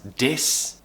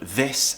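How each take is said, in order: First: The word begins with a d sound. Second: The word begins with a th sound. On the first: The speaker calls it wrong. "many students who pronounce the word this as dis" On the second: The speaker calls it right. "the word this"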